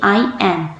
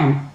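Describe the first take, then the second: First: It is said as two full separate words. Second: It is said quickly as one short syllable. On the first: "full form तो इस तरीके से होती है" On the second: "बोला भी जल्दी जाता है"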